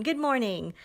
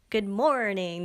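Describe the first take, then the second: First: First good morning try. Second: Second good morning try. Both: Shown as a demonstration. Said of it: "No, that doesn't work".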